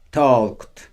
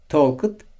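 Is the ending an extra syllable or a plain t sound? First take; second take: plain t; extra syllable. First: The ending is said as a plain t sound. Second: The ending is said as an extra syllable. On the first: The speaker calls it right. "Bunları T olarak okuyacağız" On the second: The speaker calls it wrong. "talked değil"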